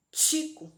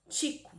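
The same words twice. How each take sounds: First: Tico said with a clear T, sounded like tchico; teacher sound demo. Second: Said in the usual way. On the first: Shown as a demonstration. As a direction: model the word for children.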